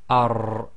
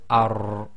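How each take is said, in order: Both takes have the same delivery.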